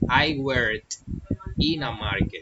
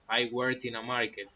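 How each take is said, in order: First: The t at the end of worked is pronounced. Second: Spoken fast, the t in worked barely sounds.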